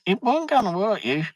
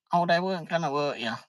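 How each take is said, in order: First: High, breezy imitation of the wife's reassurance; imitating wife. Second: Fast, high mocking parrot of her line; mock her breezy reassurance; mocking imitation. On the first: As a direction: mimic her light dismissive tone. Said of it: "she says". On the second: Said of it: "come out the end of it and say".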